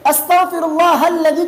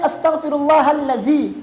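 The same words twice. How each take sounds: First: The consonant is a 'dh' sound. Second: The consonant is a 'z' sound. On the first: The speaker calls it right. "दाल है तो ज़बान की नोक को दांत के नीचे ले आए" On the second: The speaker calls it wrong. "तो ये लज़ी नहीं है"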